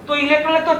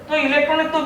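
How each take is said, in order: Both takes have the same delivery.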